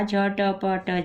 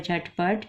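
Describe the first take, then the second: First: झटपट very slowly, letter by letter, each with its vowel; sounded out. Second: Said in the usual way. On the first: Shown as a demonstration. Teacher spelling out a new word for a learner, sounded out slowly. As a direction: stretch झटपट into separate sounds: jha-ta-pa-ta.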